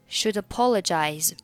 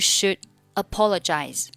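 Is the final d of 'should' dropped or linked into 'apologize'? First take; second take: linked; dropped. First: The d of should links into apologize. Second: The final d of should is dropped. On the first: "选择should 和apologize 连读成should apologize" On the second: "你可以选择should 末尾的不发音"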